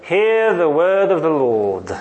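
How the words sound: It is said in a British accent. "study British English phonetics and master it"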